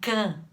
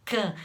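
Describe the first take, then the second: Both takes have the same delivery.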